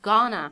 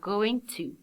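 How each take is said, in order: First: The words are reduced into one short word. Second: Both words are said fully and separately. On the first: It is informal spoken English. "some people pronounce it gonna" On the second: It is the full standard form. "Gonna is the short form of, or the spoken form of what? Uh, going to"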